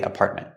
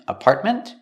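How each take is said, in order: First: The final T is cut off, unreleased. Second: The final T is clearly released. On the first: "make it a stop T too" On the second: "you can pronounce the T and say ment"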